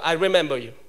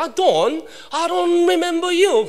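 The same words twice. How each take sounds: First: Put-on American accent. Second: Put-on British accent. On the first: The speaker answering the British teacher in an American accent. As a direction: say I remember you with a flat American r. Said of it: "저는 이제 미국 발음 하니까". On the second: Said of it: "영국 사람이니까".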